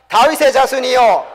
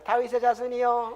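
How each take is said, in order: First: It is said loudly, shouted out. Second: It is said quietly and meekly.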